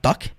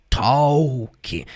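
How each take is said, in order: First: The L sound is silent in the word. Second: The L sound is pronounced in the word. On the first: The speaker calls it right. "sem o som do L" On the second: The speaker calls it wrong. "com esse som do L que eu falei agora"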